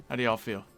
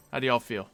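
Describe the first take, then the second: No difference in how they are said.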